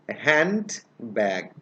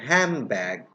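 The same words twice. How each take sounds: First: The word is split into two separate parts. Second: The word is said quickly with sounds blended. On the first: The speaker calls it wrong. "Pronounce it separately with me" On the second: The speaker calls it right. "when I will pronounce the word rapidly"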